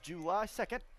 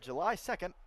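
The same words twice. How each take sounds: First: It is said in a strong Southern accent. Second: It is said in a plain, neutral accent. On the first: "I said that in the most southern accent I could have ever said" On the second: "excuse me"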